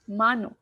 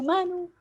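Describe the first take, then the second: First: Said in the usual way. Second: Mano said as a Santander local; Santander-accented mano, stressed on MA. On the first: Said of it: "En la penúltima sílaba". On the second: Shown as a demonstration. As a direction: give mano a Santanderean lilt. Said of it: "si uno es santandereano".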